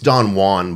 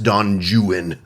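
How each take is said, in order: First: Juan is said with Spanish-style sounds. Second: Juan is said with anglicized English sounds.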